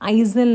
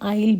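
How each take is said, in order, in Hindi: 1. यह शब्द z की आवाज़ के साथ बोला जाता है। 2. यह शब्द z की आवाज़ के बिना बोला जाता है। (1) "आइजल नहीं" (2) "आइल बोल रही हूँ क्योंकि यहाँ पे एस जो है वो साइलेंट होता"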